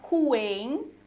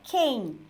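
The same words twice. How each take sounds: First: The u after the q is pronounced. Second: The u after the q is silent. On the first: The speaker calls it wrong. "a gente não fala" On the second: The speaker calls it right. "mas a gente fala"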